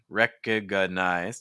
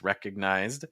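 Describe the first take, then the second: First: A vowel sound is added between G and N. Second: G and N are joined with no vowel. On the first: The speaker calls it wrong. "So it's not recognized" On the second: The speaker calls it right. "it's recognized"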